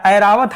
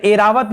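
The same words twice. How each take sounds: First: ऐरावत said with an open ai at the start; ऐरावत, first vowel a clear ai; correct Airavat. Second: एरावत said with a plain e at the start; एरावत, first vowel a short e; wrong Airavat. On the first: Teacher showing students the right form: ऐरावत with open ai. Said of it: "ऐरावत हाथी है". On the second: Teacher showing students the wrong spelling: एरावत with plain e. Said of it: "एरावत नहीं होता". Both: Shown as a demonstration.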